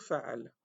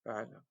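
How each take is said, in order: First: Fa'al with a clear glottal break; Arabic word demo. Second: "Fa'al" repeated softer, clipped short; quiet repeat. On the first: Teacher modelling the Arabic fa'al. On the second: Teacher softly repeating fa'al for students. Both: Shown as a demonstration. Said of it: "Donc, faire, ça veut dire".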